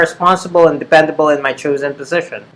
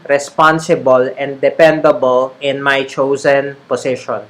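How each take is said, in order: First: Said faster with an American accent. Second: Said slowly with a Filipino Taglish accent. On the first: The speaker is used to saying these words. "you will naturally speed up. That's how Americans say it" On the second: The speaker is not used to saying these words. "That's kind of like the ta- the Taglish uh, the Taglish pronunciation"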